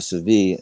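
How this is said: The name is said with a Spanish pronunciation.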